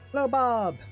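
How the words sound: The second word is the loudest, most prominent. "now Bob is the big, uh, big moment here"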